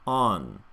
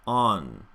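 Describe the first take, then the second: No difference in how they are said.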